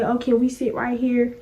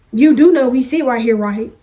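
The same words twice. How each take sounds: First: Softer, polite request; modelled courteous question, kept soft; respectful. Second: Pointed, presumptuous seat claim; mock confrontational check, dropping on "right"; disrespectful. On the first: Retold or imitated. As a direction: ask politely and unassumingly for a seat. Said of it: "in a respectful manner and said". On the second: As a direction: imitate a pushy classmate claiming a seat. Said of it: "if you coulda just came over here in a respectful manner".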